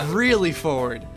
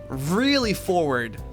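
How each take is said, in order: First: It is spoken very quickly. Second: It is spoken at a normal, unhurried pace. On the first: The speaker calls it right. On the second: The speaker calls it wrong.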